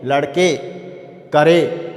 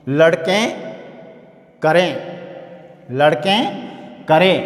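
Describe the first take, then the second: First: लड़के with a plain ए ending, करे not nasalised; without nasal. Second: लड़कें with a nasal ending, करें nasalised. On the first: Teacher contrasts the plain ए ending for students, no nasal. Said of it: "इसको अपन कहेंगे". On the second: Teacher shows the nasalised plural to students, nasal ending. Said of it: "और कहूँ". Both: Shown as a demonstration.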